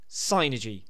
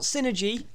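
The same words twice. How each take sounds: First: The first syllable sounds like 'sigh'. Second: The first syllable sounds like 'sin'. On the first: The speaker calls it right. "It's psychic energy" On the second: The speaker calls it wrong. "Not synergy"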